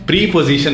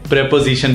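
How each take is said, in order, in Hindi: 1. पहला हिस्सा लंबी 'pree' ध्वनि है। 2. पहला हिस्सा छोटी 'prep' ध्वनि है। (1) "पर बोलने में हम प्री पोजीशन नहीं बोलते" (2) "प्रेपोजिशन बोला जाता है"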